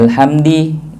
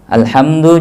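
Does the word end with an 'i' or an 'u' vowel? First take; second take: i; u. First: The word ends with an i vowel. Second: The word ends with an u vowel.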